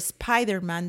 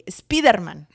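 First: It is pronounced the normal English way. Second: It is pronounced as spelled, Spanish style. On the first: "Or Spider-Man" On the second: "they say Spider-Man"

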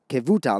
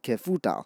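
First: The middle consonant is a v sound. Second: The middle consonant is an f sound. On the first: The speaker calls it right. "It's Kevutal" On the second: The speaker calls it wrong. "not Kefutal"

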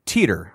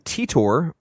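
First: The name ends with an 'er' sound. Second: The name ends with an 'or' sound. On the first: "E R, the sound" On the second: "Like O R"

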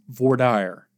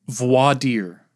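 First: It is said with a Southern US pronunciation. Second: It is said with a French pronunciation.

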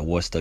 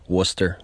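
First: It is said in a strong local Boston accent. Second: It is said in a fairly neutral accent.

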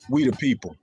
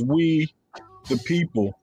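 First: There is no pause after "we". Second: There is a pause after "we".

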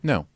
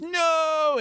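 First: The word is said flat, with low energy. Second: The word is said with high, lively energy. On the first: "just no. ... you bring it down" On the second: "the same energy that they do"

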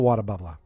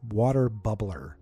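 First: It is said quickly in a Boston accent. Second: It is said slowly in a plain accent.

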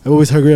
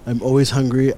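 First: It is said fast. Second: It is said slowly.

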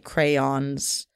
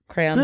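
First: The word is said slowly and clearly enunciated. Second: The word is said quickly and mumbled together. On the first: "trying to enunciate it because someone didn't hear me" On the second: "I throw in the Y there, but it's just very mumbled"

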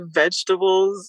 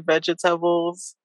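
First: The word is said the usual local way. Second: The word is said with the speaker's accent. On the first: This is how other people say it. "I don't say vegetables" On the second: This is how the speaker says it. "I say vegetables"

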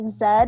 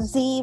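First: The letter is said the British way, zed. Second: The letter is said the American way, zee.

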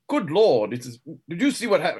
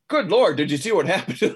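First: It is said in a put-on posh accent. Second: It is said in a plain natural accent. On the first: The character is keeping up a false persona. "It was highfalutin. Highfalutin, that's right, because that was his fake accent" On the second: The character speaks as he really talks. "in his regular voice, he would go"

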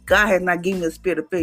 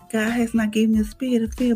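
First: It is said forcefully and with confidence. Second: It is said timidly and hesitantly.

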